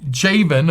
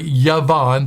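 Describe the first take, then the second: First: The name begins with a J sound. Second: The name begins with a Y sound.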